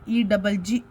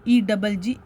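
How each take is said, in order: The two takes are said the same way.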